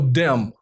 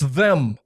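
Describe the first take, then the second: First: The word begins with a hard D sound. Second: The word begins with a soft TH sound. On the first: The speaker calls it wrong. "There is no dem" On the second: The speaker calls it right. "that's how you say the word"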